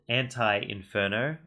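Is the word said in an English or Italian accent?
English. It is said in a plain English accent.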